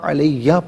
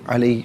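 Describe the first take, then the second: First: The word ends with a full 'ya' sound. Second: The word ends with a short 'ee' sound. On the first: The reading continues without stopping. "कर्रमत अलय्या पढ़ेंगे" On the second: The reader stops at this word. "वफ़ की सूरत में अलई पढ़ेंगे"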